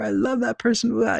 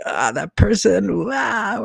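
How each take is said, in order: First: High-pitched exaggerated gushing; mock adoration. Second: High, drawn-out cry of mock aversion; mock loathing. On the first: Imitating people who love a polarizing person, hammed-up adoration. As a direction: squeal it like an overexcited fan. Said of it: "like, love or n-, not love them". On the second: Imitating people who dislike a polarizing person, exaggerated loathing. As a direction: wail it slowly as if you can't stand them. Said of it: "not love them. Just like".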